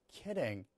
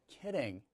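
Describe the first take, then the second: The two takes are said the same way.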